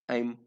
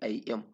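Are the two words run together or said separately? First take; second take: run together; separately. First: The two words merge into one syllable. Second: The two words are said as separate syllables. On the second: "not I am"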